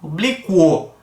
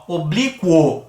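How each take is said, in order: First: "oblíquo" with the u glide clearly heard before the o; "oblíquo" com a semivogal marcada; teaching demo again. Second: "oblíquo" with a light u and a strong final o; "oblíquo" com o final forte; teaching demo. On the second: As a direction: stress the o at the end of "oblíquo". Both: Shown as a demonstration. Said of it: "pronuncia muito mais intensamente o O".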